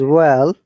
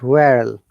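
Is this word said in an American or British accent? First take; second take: British; American. First: It is said in a British accent. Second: It is said in an American accent. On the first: "In British English" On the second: "but in American English"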